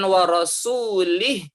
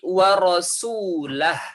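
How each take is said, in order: First: The last syllable ends with an 'ih' sound. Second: The last syllable ends with an 'ah' sound. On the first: The speaker calls it wrong. "Bukan wa rasulih" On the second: The speaker calls it right. "tetapi wa rasulah"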